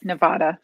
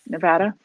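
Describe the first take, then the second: First: Nevada with an open "vah" in the middle. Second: Nevada with "va" as in "van"; Nevada with short A. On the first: Trying both ways for the host who asked, Nevada with "ah". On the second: Trying the second way for the host, Nevada with short A. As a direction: say Nevada with a flat A in the middle. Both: Shown as a demonstration. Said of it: "How do you say Nevada?".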